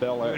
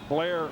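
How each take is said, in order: First: The name is said as two separate syllables. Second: The name is squeezed into one syllable. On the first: The speaker calls it wrong. "not Bel Air" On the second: The speaker calls it right. "Like Blair"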